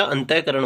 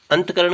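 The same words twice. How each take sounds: First: अंतःकरण with an open syllable after ant; visarga form. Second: अंतकरण with t joined straight to k; missing visarga. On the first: Teacher correcting students' error, अंतःकरण with visarga. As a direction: say अंतःकरण as "antah-karan". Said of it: "होता है". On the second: Teacher repeating the faulty form, अंतकरण without visarga. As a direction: say अंतकरण as "ant-karan". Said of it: "कुछ नहीं होता". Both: Shown as a demonstration.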